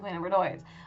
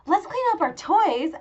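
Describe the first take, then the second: First: It sounds reluctant and unenthusiastic. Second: It sounds cheerful and enthusiastic.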